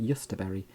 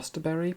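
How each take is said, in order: First: The word begins with a 'y' sound. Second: The word begins with a 'j' sound. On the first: This is how it is properly pronounced. "I think you pronounce it yusterberry" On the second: This is how the speaker usually says it. "I call it a josterberry plant"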